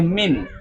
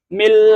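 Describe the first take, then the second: First: The word ends with an n sound. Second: The word ends with an l sound. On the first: The speaker calls it wrong. "nggak boleh min" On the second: The speaker calls it right. "langsung ke lam"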